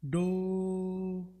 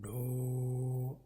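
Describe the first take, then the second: First: It is said at a high pitch. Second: It is said at a low pitch. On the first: "this is high frequency" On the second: "this is low frequency"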